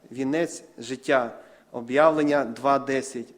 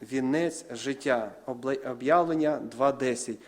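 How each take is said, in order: No difference in how they are said.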